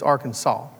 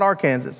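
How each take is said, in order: First: The final syllable sounds like 'saw'. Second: The final syllable sounds like 'sass'. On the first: The speaker calls it right. "It's Arkansas. ... they pronounced it Saul and not Sass" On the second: The speaker calls it wrong. "It is illegal to pronounce it Arkansas because it's not Arkansas"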